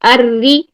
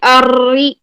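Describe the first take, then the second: First: The r is trilled only once or twice. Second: The r is trilled many times, at length. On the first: The speaker calls it right. "वन से two times की तकरार" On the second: The speaker calls it wrong. "अर्री ऐसे नहीं करना, तकरार ज्यादा नहीं लेके आनी"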